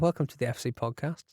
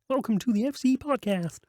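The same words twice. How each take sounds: First: It is said in the speaker's normal voice. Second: It is said in a Kermit the Frog voice.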